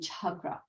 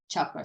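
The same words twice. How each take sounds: First: The first consonant has a puff of air. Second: The first consonant has no puff of air. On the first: "the H would be aspirated" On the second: "just a C in Sanskrit is chakra"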